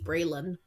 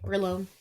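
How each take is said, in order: First: The last syllable has a short vowel, 'lon'. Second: The last syllable has a long vowel, 'lone'. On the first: This is how the name is actually said. "not how that is pronounced" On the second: This is how the spelling would be read. "That's Brayloni or Braylone"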